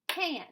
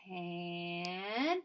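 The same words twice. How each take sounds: First: The word is said quickly as one unit. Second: The word is drawn out slowly, sound by sound. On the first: "fast like a word" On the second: "let's say it slowly"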